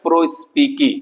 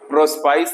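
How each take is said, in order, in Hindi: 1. शब्द का अंत 'spi-kee' जैसी आवाज़ से होता है। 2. शब्द का अंत 'spice' जैसी आवाज़ से होता है। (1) "इसको पढ़ते हैं प्रोस्पिकी" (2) "न तो प्रोस्पाइस है"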